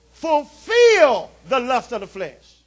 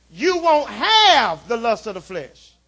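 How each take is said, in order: First: Slow, weighty stress on "fulfill". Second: Slow, pointed stress on "have". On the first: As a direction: lean hard on "fulfill", draw it out. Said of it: "Underline that word, "fulfill". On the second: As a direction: hit "have" to show what it doesn't say. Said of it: "Notice it doesn't say". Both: Shown as a demonstration.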